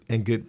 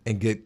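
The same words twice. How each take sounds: The two takes are said the same way.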